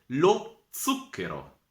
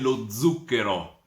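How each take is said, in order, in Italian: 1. La z ha il suono dell'italiano standard. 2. La z ha il suono dell'italiano settentrionale. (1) "si dice in lingua italiana" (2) "Gemo al nord, quei che dice"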